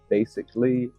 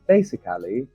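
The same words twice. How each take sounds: First: One syllable of the word is dropped. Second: Every syllable of the word is pronounced fully. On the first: "in England, for example, we would say basically" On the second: "people will say things like basically, basically, like this"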